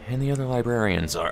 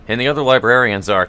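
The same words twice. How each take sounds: First: It is said in the other character's put-on voice. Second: It is said in the intended character's voice. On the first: The speaker calls it wrong. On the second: The speaker calls it right.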